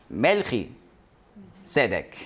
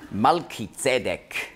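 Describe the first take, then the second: First: The name begins with the sounds 'Melchi'. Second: The name begins with the sounds 'Malki'.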